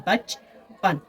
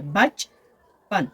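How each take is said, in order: First: Said in the usual way. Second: बचपन said very slowly as बच-पन; split into syllables. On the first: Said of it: "आवाज़ें सिर्फ दो बनती हैं". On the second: Shown as a demonstration. Teacher showing students the two syllables of बचपन. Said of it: "दो आवाज़ों पर मुश्तमिल है".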